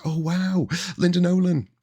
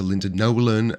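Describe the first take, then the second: First: the exclamation squealed much higher, awed; starstruck gush. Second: Said in the usual way. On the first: Retold or imitated. Recalling meeting a singer on the pier, starstruck squeal. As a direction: relive the thrill of meeting a star, pitched way up.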